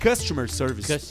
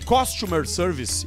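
First: The first syllable sounds like 'cust'. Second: The first syllable sounds like 'costume'. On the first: The speaker calls it right. "na real é customer service" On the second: The speaker calls it wrong. "Eu falo às vezes"

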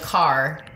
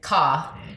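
First: The final R sound is strongly pronounced. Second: The final R sound is dropped. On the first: "it's such a hard R" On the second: "versus like ka"

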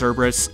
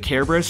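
First: The name begins with a soft S sound. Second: The name begins with a hard K sound. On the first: This is the form most people use. "most people pronounce it Cerberus" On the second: This is the form the speaker was taught and chooses to use. "I'm going to pronounce it Kerberos"

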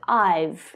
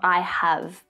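First: The words are joined into one short syllable. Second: Both words are said in full, separately. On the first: The speaker calls it right. "but I've" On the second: The speaker calls it wrong. "Not I have"

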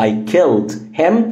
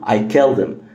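First: The h sound in him is pronounced. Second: The h sound in him is dropped. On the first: "بدل ما اقول" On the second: "هنختصرها ونشيل ال H"

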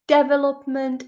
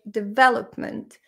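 First: The stress is on the first syllable. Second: The stress is not on the first syllable. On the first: The speaker calls it wrong. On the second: The speaker calls it right.

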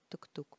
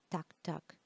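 First: The vowel sounds like the one in 'took'. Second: The vowel sounds like the one in 'cut'. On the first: This is how people locally usually say it. "Я привыкла, что у нас все говорят тук-тук" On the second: This follows English reading rules. "наверное, его называют, ребята, так-так, по правилам чтения"

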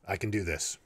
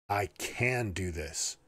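First: No word stands out; the delivery is flat. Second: The word "can" is stressed.

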